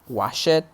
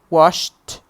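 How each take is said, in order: First: The ending is an extra 'id' syllable. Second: The ending is a single t sound. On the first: The speaker calls it wrong. "some students sometimes say" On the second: The speaker calls it right. "we pronounce them like t"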